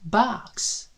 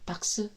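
First: The vowel is wide, with mouth open. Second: The vowel is small, like Korean. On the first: The speaker calls it right. "입을 아 소리를 좀 크게 하시고요" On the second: The speaker calls it wrong. "그냥 아 소리를 좀 우리나라 말처럼 작게 하셔서 박스 이러면은 이게 또 맛이 안 나요"

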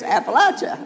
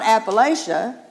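First: It is pronounced the way locals say it. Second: It is pronounced the way outsiders say it. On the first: The speaker is from the region. The speaker calls it right. "If you live in Appalachia, it's Appalachia" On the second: The speaker is not from the region. The speaker calls it wrong. "it's not Appalachia"

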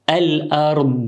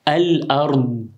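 The two takes are said the same way.

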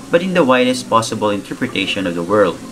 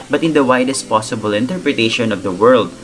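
The two takes are said the same way.

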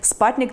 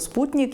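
First: The first vowel sounds like 'a'. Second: The first vowel sounds like 'u'. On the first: "читають вони його як «спатник»" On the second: "тобто «спутник»"

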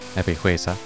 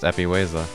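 First: The H sound is pronounced in the name. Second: The H sound is silent in the name. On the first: The speaker calls it wrong. "I've been pronouncing the H all this time" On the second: The speaker calls it right. "you don't do that. It's just Epihuesa"

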